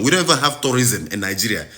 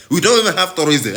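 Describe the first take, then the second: First: Said in the usual way. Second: Exasperated, punching don't; stress on don't. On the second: Real, not acted. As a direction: lean hard on don't, a bit higher.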